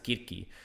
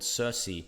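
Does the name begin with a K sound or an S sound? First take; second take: K; S. First: The name begins with a K sound. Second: The name begins with an S sound.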